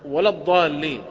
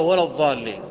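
First: The word begins with the dad sound. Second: The word begins with the za sound. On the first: It means those who have gone astray. The speaker calls it right. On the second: It means those who remain. The speaker calls it wrong.

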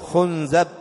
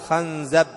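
First: The first vowel is u, the second a. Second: The first vowel is a, the second a. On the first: "ويجوز ضمها" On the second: "ويجوز فتح الخاء"

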